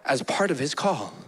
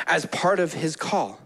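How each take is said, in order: Both takes have the same delivery.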